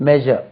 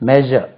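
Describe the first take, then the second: The two takes are said the same way.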